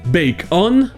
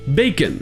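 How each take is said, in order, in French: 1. La deuxième syllabe est accentuée avec une voyelle pleine. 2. La deuxième syllabe n'est pas accentuée, avec une voyelle réduite. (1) "il est accentué, et donc ça se prononce on" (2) "le O N se prononce un"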